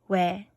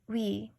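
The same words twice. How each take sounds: First: The syllable sounds like 'weh'. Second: The syllable sounds like 'wee'. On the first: This is how the syllable is actually pronounced. The speaker calls it right. "a sound that's the same as the one before it" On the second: This is what the spelling rule would predict. The speaker calls it wrong. "We should get we. But unfortunately we don't"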